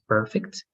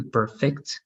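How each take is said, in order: First: "perfect" with PER stressed, fect light; stress on first syllable. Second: "perfect" with FECT stressed, per light; stress on second syllable. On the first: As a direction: put the weight on PER in "perfect". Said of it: "perfect is a noun". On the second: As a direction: put the weight on FECT in "perfect". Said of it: "perfect means perfeccionar". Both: Shown as a demonstration.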